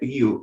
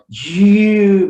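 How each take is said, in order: First: The word is said briefly and naturally. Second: The word is drawn out and over-articulated. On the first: This is how it is really said. "mas é you" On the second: It is overdone to make the sound clear. "Às vezes eu exagero na pronúncia, eu falo you"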